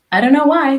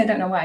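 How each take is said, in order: First: A hint of Shan, higher and much louder; Shan's voice. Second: Said in the usual way. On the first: Guest echoing how Shan says it, mildly mocking. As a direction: lightly mimic Shan's punchy line. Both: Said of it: "I hear Shan's voice".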